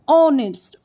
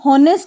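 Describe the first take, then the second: First: The starting h sound is silent. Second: The starting h sound is pronounced. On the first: The speaker calls it right. "हम लोग ऑनेस्ट बोलेंगे" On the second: The speaker calls it wrong. "यहाँ पे हम हॉनेस्ट नहीं बोलेंगे"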